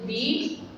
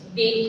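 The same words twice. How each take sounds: First: The vowel is a long 'ee' sound. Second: The vowel is a short 'uh' sound. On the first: The next word starts with a vowel sound. "Di dibaca ketika kata benda yang mengikutinya berbunyi vokal di awal kata" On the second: The next word starts with a consonant sound. "the digunakan dibaca ketika kata benda yang mengikutinya berbunyi konsonan di awal kata"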